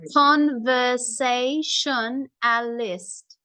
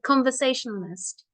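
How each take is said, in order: First: It is said slowly, split into parts. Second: It is said fast as one word.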